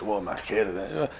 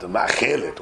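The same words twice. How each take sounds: First: Lower, much softer and slower ma'achelet, drawn out; mock posh Hebrew. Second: Lower, softer mock-posh ma'achelet; a light parody of fancy Hebrew. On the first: Teasing the fancy word for a knife, slow and hushed posh. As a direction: savour ma'achelet like a snob. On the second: Mocking the Queen's English word for his listeners, lightly posh. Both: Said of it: "that's the Queen's English".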